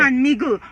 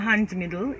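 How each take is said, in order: First: The second word has a G sound in the middle. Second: The second word has a D sound in the middle. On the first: The speaker calls it right. "the correct thing is hand miggle" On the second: The speaker calls it wrong. "no, no, hand middle"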